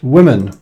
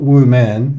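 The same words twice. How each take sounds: First: "women" said as WIM-in; correct pronunciation. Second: "women" said slowly as WOO-MEN; mispronunciation. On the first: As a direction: say "women" with a short i first. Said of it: "it's pronounced women". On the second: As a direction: give "women" two full syllables, woo and men. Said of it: "not women". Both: Shown as a demonstration.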